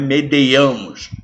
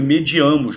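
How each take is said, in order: First: The second syllable is 'dei' with an added 'e'. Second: The second syllable is 'di' without an added 'e'. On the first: The speaker calls it wrong. "não é medeiamos" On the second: The speaker calls it right. "O certo é mediamos"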